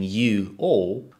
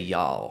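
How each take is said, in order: First: It is said as two full separate words. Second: It is said as one contracted word. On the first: "instead of saying you all" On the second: "we say y'all"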